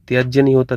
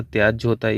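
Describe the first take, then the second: First: त्याज्य said with a final ya sound, tyaaj-ya; wrong form. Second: त्याज्य ending on j, tyaaj; correct form. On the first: Teacher rejecting one form, त्याज्य said as tyaaj-ya. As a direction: add the ya ending to त्याज्य. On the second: Teacher giving the accepted form, त्याज्य said as tyaaj. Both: Shown as a demonstration.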